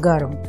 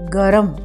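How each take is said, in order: First: The middle r is a half consonant cluster. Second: The middle r carries a full vowel. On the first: "और गर्म" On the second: "गर्म का उच्चारण गरम इस तरह से भी किया जाता है"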